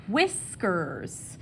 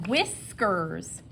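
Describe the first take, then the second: First: Said in the usual way. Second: Whispered "Whiskers" with a breathy wh; wispy wh. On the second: Shown as a demonstration. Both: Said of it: "wispy sound in my voice".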